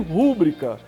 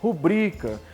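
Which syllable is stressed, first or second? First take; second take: first; second. First: The stress is on the first syllable. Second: The stress is on the second syllable. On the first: The speaker calls it wrong. "teria acento como mística... e nem rúbrica" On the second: The speaker calls it right. "Ela é paroxítona"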